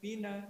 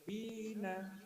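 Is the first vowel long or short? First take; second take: short; long. First: The first vowel is short and quick. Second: The first vowel is held one beat longer. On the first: "dibaca bina cepat" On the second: "dibaca panjang satu ayunan"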